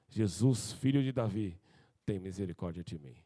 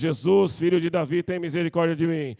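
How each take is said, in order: First: It is said at a normal, softer level. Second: It is said louder, with a raised voice.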